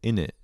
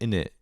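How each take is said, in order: First: It is reduced, with the middle consonants dropped. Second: It is reduced, with the middle consonants dropped.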